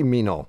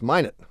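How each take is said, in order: First: The name ends without a t sound. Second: The name ends with an audible t sound. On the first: This is the French way of saying it. "a lot of French people live in North Dakota" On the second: This is how the locals say it. "They pronounce it Minot"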